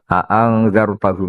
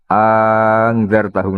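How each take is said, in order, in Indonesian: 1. Kedua hamzah pembuka dibaca terpisah dengan jelas. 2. Kedua hamzah pembuka menyatu menjadi satu. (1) "Hamzahnya dibaca tahqiq" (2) "itu bil idgham berarti apa?"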